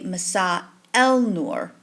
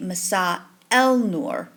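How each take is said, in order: First: An 'l' sound is heard before 'nur'. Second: The same.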